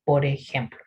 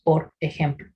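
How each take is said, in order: First: "por ejemplo" said as "po rejemplo", with the R joined to the E; linked por ejemplo. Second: "por ejemplo" with the R of "por" kept apart from "ejemplo"; separated por ejemplo. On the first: Teacher showing the right way, "por ejemplo" linked. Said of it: "como si estuviéramos diciendo". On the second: Teacher showing the wrong way, "por ejemplo" kept separate. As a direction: say "por" and "ejemplo" as two words. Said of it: "nosotros no decimos". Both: Shown as a demonstration.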